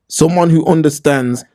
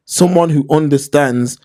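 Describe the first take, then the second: No difference in how they are said.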